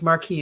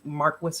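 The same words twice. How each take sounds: First: It ends in an ee sound, with no s. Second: It sounds like Marcus, ending in an s.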